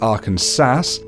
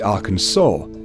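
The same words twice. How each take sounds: First: The stress is on the second syllable, final S sounded. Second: The stress is on the first syllable, final S silent. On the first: The speaker calls it wrong. "One wanted it Arkansas" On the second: The speaker calls it right. "The latter won and made the legislation official"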